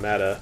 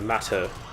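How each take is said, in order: First: The T is soft and flapped, like a D. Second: The T is crisp and clearly pronounced. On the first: The speaker calls it wrong. "as opposed to saying matter" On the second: The speaker calls it right. "say matter"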